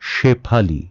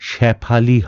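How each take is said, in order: First: The first vowel is closer, like 'bet'. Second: The first vowel is open, like 'cat'. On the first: The speaker calls it right. "এটি কি হবে? শেফালি" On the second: The speaker calls it wrong. "তাই এটি শেফালি হবে না"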